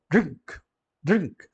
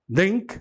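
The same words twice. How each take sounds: First: "drink" short, oral i then ng-k; correct English pronunciation. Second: "drink" with the i swallowed into a nasal vowel; non-English pronunciation. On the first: Teacher correcting the Brazilian version, crisp English "drink". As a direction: say "drink" in one syllable without nasalizing the i. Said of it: "você não pode nasalar aquele I". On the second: Teacher showing another wrong version, nasalized-i "drink". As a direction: nasalize the i of "drink", Brazilian style. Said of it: "também não é inglês". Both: Shown as a demonstration.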